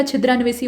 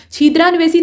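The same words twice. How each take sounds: First: छिद्रान्वेषी starting with short chhi; quick first vowel in छिद्रान्वेषी. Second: छिद्रान्वेषी starting with long chhee; wrong long ee. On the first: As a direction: say छिद्रान्वेषी as chhidraan-veshee. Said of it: "छिद्रान्वेषी होता है". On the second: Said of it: "छिद्रान्वेषी नहीं होता". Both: Shown as a demonstration.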